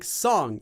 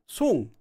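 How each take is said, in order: First: The vowel is an open 'ah'-like sound. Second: The vowel is a rounded 'oo'-like sound. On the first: This is how strangers read the name. The speaker calls it wrong. "people are going to probably say it as song because it looks like song" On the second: This is how the owner says the name. The speaker calls it right. "it's Song with an U sound"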